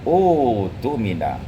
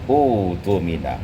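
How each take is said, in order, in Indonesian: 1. Ia dimulai sendiri dengan vokal panjang 'oo'. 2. Ia dimulai sendiri dengan vokal panjang 'oo'.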